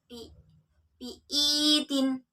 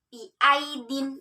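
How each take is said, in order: First: The vowel is a plain 'i' sound. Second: The vowel is an 'ai' sound. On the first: The speaker calls it wrong. "bukan bi biitin" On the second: The speaker calls it right. "cara membacanya ai ... tapi biaidin tetap"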